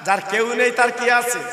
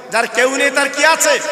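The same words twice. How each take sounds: First: Said in the usual way. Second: Raised, forceful question to the crowd; louder call. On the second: Shown as a demonstration. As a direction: say it loud to rouse the listeners. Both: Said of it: "জোরে বলতে হবে".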